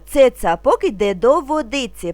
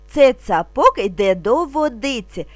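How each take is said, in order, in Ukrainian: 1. Фраза вимовляється трохи швидше. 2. Фраза вимовляється повільно і спокійно. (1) "трошки швидше" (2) "спокійно, не спіша"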